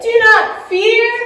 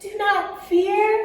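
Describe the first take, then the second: First: It is said very loudly. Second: It is said very quietly.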